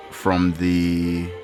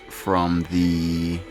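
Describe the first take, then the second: No difference in how they are said.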